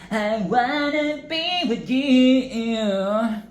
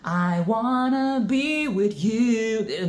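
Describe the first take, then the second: First: It is said nasal and moany, Japanese-style. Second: It is said in a plain American accent.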